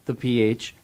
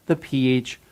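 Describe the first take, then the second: No difference in how they are said.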